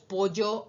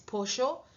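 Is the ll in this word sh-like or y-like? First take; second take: y-like; sh-like. First: The ll is pronounced as a y-like sound. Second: The ll is pronounced as a sh-like sound. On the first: "como pronunciamos la Y, o la doble L en casi todos los dialectos" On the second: "en Argentina es pollo"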